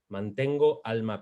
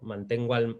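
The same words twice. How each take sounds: First: The final o and following a stay apart. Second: The final o runs into the following a. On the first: The speaker calls it right. "Lo natural aquí, en este caso, es precisamente separarlo" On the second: The speaker calls it wrong. "en realidad no quedaría muy natural"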